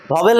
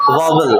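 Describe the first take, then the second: First: वॉवेल said the wrong way, bo-wel; the mistaken वॉवेल with long e; wrong pronunciation. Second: वॉवल said low and short, vaa-vul; वॉवल, lower, like vaa-vul; correct pronunciation. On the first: (गलत उच्चारण: वॉवेल) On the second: (सही उच्चारण: वॉवल, नीचे सुर में) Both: Shown as a demonstration. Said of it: "वॉवेल नहीं होता".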